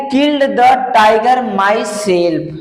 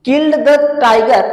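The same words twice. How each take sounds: First: Slow dictation. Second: Slow repeat. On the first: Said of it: "समझ में आ रहा है कि नहीं?". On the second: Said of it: "तो कह रहा है कि". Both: Shown as a demonstration.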